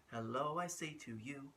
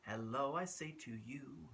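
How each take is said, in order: Both takes have the same delivery.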